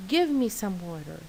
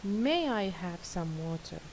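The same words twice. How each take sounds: First: A blunt, bossy demand; least polite. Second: A gentle, courteous ask; most polite. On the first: Teacher modelling a rude demand for water, curt and bossy. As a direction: toss the request off like an order. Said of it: "I think it's the least polite". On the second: Teacher modelling the politest way to ask for water, gentle and courteous. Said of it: "The most polite one is". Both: Shown as a demonstration.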